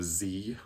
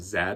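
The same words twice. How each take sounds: First: It is said the American way, as 'zee'. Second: It is said the Canadian way, as 'zed'.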